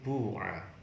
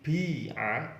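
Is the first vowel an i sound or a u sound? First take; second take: u sound; i sound. First: The first vowel is a u sound. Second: The first vowel is an i sound. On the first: "huruf awalnya dibaca dhammah" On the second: "huruf awal dibaca kasroh"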